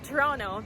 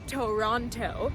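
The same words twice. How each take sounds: First: The second t sound is dropped. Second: The second t sound is clearly pronounced. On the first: The speaker calls it right. "pronounced Toronto" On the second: The speaker calls it wrong. "not Toronto"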